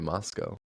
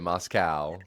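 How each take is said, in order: First: The second syllable rhymes with go. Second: The second syllable rhymes with now. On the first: It names the local town, as residents say it. "the W got ejected out of the game and it was just left with the C O" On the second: It names the city in Russia. "when we think about Russia, we say Moscow"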